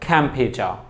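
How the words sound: The final r sound is silent. "ব্রিটিশরা ... আরটা কিন্তু মাঝখানে কিংবা শেষে উচ্চারণ হয় না"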